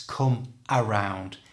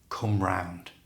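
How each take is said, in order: First: An extra vowel sound comes before 'round'. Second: No extra vowel sound comes before 'round'. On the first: "putting an A in front of round" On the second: "quite often it's simply just said come round"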